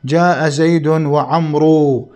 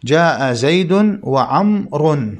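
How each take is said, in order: First: "وعمرو" wrongly voiced with a long final oo, wa-amroo; mistaken pronunciation. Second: Slow model reading, "وعمر" as wa-amrun; correct case ending. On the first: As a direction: sound out the silent waw in "وعمرو" as oo. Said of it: "من الخطأ أن يقال". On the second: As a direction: end "وعمر" in -un, never a long oo. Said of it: "المفروض أن يقال عمر". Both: Shown as a demonstration.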